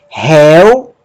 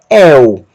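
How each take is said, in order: First: The diphthong starts with a breathy h sound. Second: The diphthong starts directly with the vowel. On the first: "aspiração forte, que vai alterar a pronúncia do ditongo el para réu" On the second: "eta, y, el"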